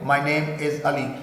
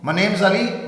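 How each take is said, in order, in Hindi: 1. Name और is अलग-अलग शब्दों की तरह बोले जाते हैं। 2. Name और is एक ही शब्द में जुड़ जाते हैं।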